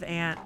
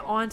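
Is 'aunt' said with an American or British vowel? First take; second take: American; British. First: It is said with an American vowel. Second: It is said with a British vowel.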